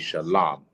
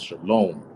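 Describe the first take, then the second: First: The last syllable has a non-'o' vowel. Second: The last syllable has an 'o' vowel. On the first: This is the original form without added vowel letters. The speaker calls it right. "So the correct pronunciation will be shalom" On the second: This is the later form with added vowel letters. The speaker calls it wrong. "This is how they pronounce shalom"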